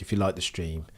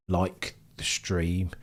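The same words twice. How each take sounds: First: Said in the usual way. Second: Like the stream drawn out slowly; slow, stretched repeat. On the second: Shown as a demonstration. Streamer stressing the ask to viewers, said slowly.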